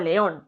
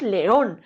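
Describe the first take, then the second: First: The stress is on the first syllable. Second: The stress is on the last syllable. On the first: The speaker calls it wrong. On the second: The speaker calls it right.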